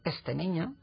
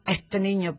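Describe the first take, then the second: First: The s in este is a clear s. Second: The s in este sounds like a breathy h. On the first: This is the standard form. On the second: This is the American Spanish variant.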